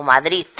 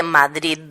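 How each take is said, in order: First: Madrid ending in a hard T, "Madrit"; Catalan-style Madrid with a crisp final T. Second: Madrid with a soft voiced D at the end; final D kept soft. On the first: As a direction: harden the last sound of Madrid to a voiceless t. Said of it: "se dice T". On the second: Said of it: "en lugar de Madrid". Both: Shown as a demonstration.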